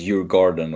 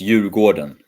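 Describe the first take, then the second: First: The vowels are short and clipped. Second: The vowels are drawn out and long. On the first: This is how most people say it. "Everybody says Hugo Gordon" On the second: This is the typical Swedish pronunciation. "it's long, like elongated"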